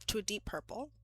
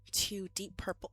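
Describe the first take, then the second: First: Breathy whisper, like telling a secret. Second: Said in the usual way. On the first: Shown as a demonstration. Whispering the wine color to her viewers. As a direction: whisper it softly, no voice at all. Repeats phrase, then whispers it.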